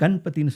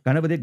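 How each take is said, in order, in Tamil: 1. முதல் அசைக்கு அப்புறம் எந்த உயிரும் கேக்கல. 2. முதல் அசைக்கு அப்புறம் ஒரு உயிர் கேக்குது.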